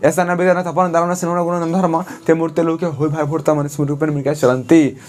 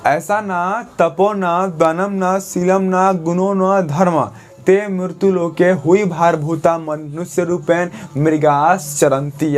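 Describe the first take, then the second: First: The verse is recited fast without pauses. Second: The verse is recited slowly with pauses.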